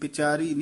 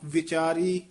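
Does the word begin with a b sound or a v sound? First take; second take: b sound; v sound. First: The word begins with a b sound. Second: The word begins with a v sound. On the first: The speaker calls it wrong. "बिचारी नहीं" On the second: The speaker calls it right. "वावा विचारी वावा बोलो"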